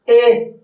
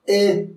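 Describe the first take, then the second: First: "E" lifted, held and projected; fully voiced vowel. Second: "E" short and understated; weakly pronounced vowel. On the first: Coach shows correct vocalization, a full held "E". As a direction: give "E" its full, sustained sound. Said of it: "se dice E". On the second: Coach shows how not to vocalize, a weak short "E". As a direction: say "E" small, without projecting it. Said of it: "practicar la pronunciación de las vocales". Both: Shown as a demonstration.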